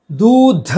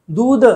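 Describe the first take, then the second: First: दूध with forceful final "dha"; raised, loud दूध with puffed ध; aspirated ending. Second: दूध said as "dood"; wrong plain d. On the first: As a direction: punch the breath out on ध in दूध. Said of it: "होना चाहिए". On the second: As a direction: end दूध with no aspiration. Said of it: "दूध गलत है". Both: Shown as a demonstration.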